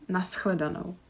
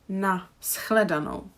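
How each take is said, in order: First: It flows as one word with no break. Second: There is a small break after na. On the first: The speaker calls it right. "I say nashledano ... there is not really a pause and it kind of sounds as one word together" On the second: The speaker calls it wrong. "I don't say na shledano"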